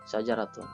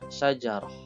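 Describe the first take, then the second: First: The final letter is pronounced as t. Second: The final letter is pronounced as h. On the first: "Di sini ada ta" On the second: "ketika huruf ta di sini tun ini kita matikan, maka bunyinya menjadi syajarah"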